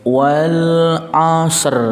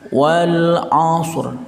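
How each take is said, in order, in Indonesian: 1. Ada vokal yang memisahkan bunyi s dan r akhir. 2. Bunyi s akhir langsung menyambung ke bunyi r. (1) "enggak boleh kita membaca wal asr" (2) "Jadi pengucapannya itu langsung wal asr"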